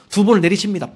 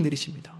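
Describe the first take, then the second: First: 내리칩니다 said loud with a falling stress on 번을; forceful telling. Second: 내리칩니다 echoed softly, dropping away; quiet repeat. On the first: Preacher stressing that Moses struck twice, loud. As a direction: hit 두 번을 내리칩니다 hard and loud. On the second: Preacher quietly echoing the strike, softer. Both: Shown as a demonstration.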